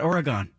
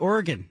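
First: The word ends not sounding like the word organ. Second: The word ends sounding like the word organ. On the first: The speaker calls it wrong. "not Oregon" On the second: The speaker calls it right. "You got to say Oregon"

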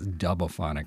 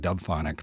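First: The name is said with four syllables. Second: The name is said with three syllables. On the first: The speaker calls it right. "but it's Dubophonic" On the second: The speaker calls it wrong. "I've been saying that wrong. I've been calling it Dubphonic"

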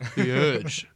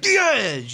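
First: It is said flatly, with low energy. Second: It is said loudly, with high energy. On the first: The speaker calls it wrong. "Don't sound like you did when I first said hi to you" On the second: The speaker calls it right. "It's gotta be like, ... you're pumped up"

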